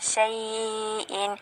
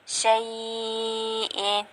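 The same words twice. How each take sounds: First: The stretched vowel is held medium length. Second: The stretched vowel is held long. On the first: "bitawasud pada kalimah syai'in"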